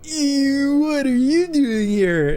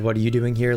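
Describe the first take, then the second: First: It is said with exaggerated disgust. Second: It is said in a plain, normal way.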